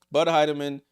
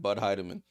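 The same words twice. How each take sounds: First: Bud Heidemann called loud, like an announcer; hyped call of the name. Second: Said in the usual way. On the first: Shown as a demonstration. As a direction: belt out Bud Heidemann as a nickname. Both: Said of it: "I'm gonna start calling her that".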